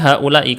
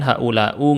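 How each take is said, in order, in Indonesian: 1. Kata itu diakhiri dengan vokal i. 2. Kata itu diakhiri dengan vokal u. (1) "Haula ini pasti seperti ini" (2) "nggak mungkin haulau, nggak mungkin harokatnya berubah"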